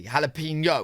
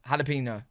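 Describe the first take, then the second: First: Jalapeno said hal-a-peen-yo, as chat taught; careful Jalapeno with the y sound before o; corrected jalapeno. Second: Jalapeno said hal-a-peen-o, quiet and falling; sounding out Jalapeno with an h, softly; first try at jalapeno. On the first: Streamer repeating chat's Jalapeno, hal-a-peen-yo. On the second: Brit reaction streamer trying Jalapeno, said hal-a-peen-o. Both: Shown as a demonstration. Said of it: "told me how to say it properly".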